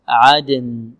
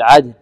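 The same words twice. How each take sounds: First: The final n sound is clear. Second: The final n sound is faint. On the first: The speaker calls it right. "نقول عدن عدن عدن" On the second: The speaker calls it wrong. "تكون النون يعني ليست واضحة"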